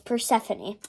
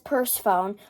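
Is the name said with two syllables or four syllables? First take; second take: four syllables; two syllables. First: It is said as four syllables, per-se-pho-ne. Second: It is said as two syllables, purse phone. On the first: The speaker calls it right. "we searched up how to pronounce it, and it's Persephone" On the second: The speaker calls it wrong. "it looks like it says purse phone"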